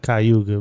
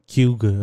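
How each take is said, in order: First: Every syllable of the name is pronounced fully. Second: The syllables are run together into a short word. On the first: This is how an outsider says it. "I know you'll pronounce it Cayuga" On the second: This is how the locals say it. "they say it like Cuga or something like that. They kind of like put it all together"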